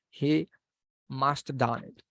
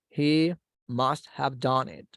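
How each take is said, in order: First: The word 'have' is reduced to a short 'of'. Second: The word 'have' is said in full.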